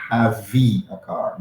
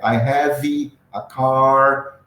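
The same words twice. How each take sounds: First: "have a car" slow, "have" ending on a clean v with no vowel; correct have. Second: "I have a car" drawn out as "hévi", an i added after the v; slow mock Brazilian "I have a car" with the added vowel; wrong extra vowel. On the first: Teacher modelling the correct form, slow clean "have". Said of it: "não é". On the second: Teacher showing the Brazilian error, drawn-out "hévi". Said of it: "Você ignora esse V". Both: Shown as a demonstration.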